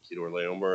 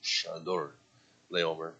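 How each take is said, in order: First: The name begins with a hard K sound. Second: The name is said in a French-like way. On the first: "it's actually spelled with a K, so therefore I'm pronouncing it" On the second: "some would say more French"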